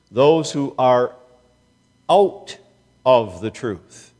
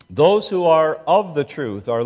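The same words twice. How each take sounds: First: Slow phrase, with "out" lifted and punched; stress on out, slow with pauses. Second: Said in the usual way. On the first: Shown as a demonstration. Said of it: "They are out of the truth".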